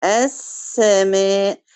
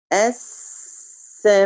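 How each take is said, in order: First: السماء said very slowly, resting on the silent سين; held sakin. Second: Clipped al-samaa, no pause on the sukun; snapping السماء short without resting on the سين; rushed sakin. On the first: Teacher demonstrating السماء with a slow, held sukun. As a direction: stretch السماء, pausing a beat on the sukun. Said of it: "بدي برهة بسيطة". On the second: Teacher demonstrating the wrong, rushed السماء. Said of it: "ما أقول". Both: Shown as a demonstration.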